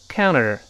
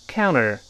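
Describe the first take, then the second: No difference in how they are said.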